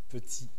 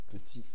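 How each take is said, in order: The two takes are said the same way.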